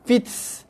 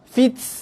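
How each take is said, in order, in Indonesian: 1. Bunyi t di akhir berakhir dengan hembusan napas yang kuat, seperti desisan. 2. Bunyi t di akhir berakhir dengan hembusan napas yang kuat, seperti desisan.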